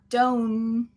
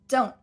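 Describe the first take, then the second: First: The N sound is held long and full. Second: The N sound is cut off abruptly. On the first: The speaker calls it wrong. "we don't want don't with that full N" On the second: The speaker calls it right. "We got to cut the N"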